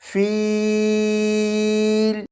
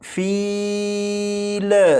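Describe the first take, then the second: First: The voice stops cleanly on the final L. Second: The final L ends with an echoing bounce. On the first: The speaker calls it right. "लाम पर पहुंचे तो आवाज़ ख़त्म कर दीजिएगा" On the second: The speaker calls it wrong. "इस तरह से ना पढ़िएगा"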